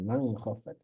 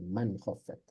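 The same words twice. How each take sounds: First: The n sound is blurred into the next sound. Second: The n sound is pronounced clearly and distinctly. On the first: The speaker calls it wrong. "jangan man khaffat" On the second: The speaker calls it right. "ya jelas nunnya"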